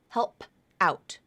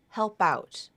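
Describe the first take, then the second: First: The final P stays separate from the next word. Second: The final P links onto the next word. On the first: The speaker calls it wrong. "not help out" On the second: The speaker calls it right. "sound like help out"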